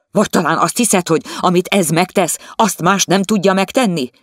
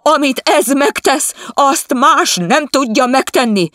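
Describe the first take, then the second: First: Louder, higher mocking question. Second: Much higher, louder, slow shouted insistence; shouting wife. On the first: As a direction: taunt her for the servant. The husband mocks her. (gúnyos, hangos kérdés) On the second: Acted. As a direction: scream it back at him. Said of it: "Kiabált az asszony". (magas, hangos, lassú kiabálás)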